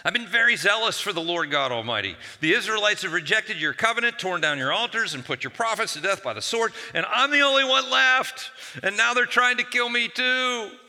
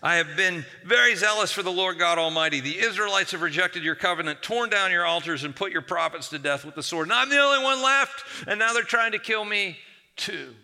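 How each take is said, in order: First: High, loud, whining grievance; rising into a loud whiny wail; whiny complaint. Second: High, loud, whining grievance again; loud complaining wail; repeated whiny complaint. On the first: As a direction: whine it out to God like a wronged prophet. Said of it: "see if you can hear the whininess in his voice". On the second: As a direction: whine to God as before, full force. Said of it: "Elijah repeats the same thing". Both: Acted.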